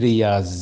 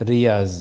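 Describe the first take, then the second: Both takes have the same delivery.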